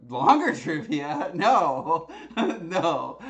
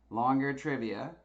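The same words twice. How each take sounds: First: Loud, incredulous laughing refusal; laughing disbelief. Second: Said in the usual way. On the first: Real, not acted. Host balking at the longer trivia poll result, laughing in disbelief. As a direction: balk at it loudly through laughter.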